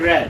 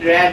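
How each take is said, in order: The two takes are said the same way.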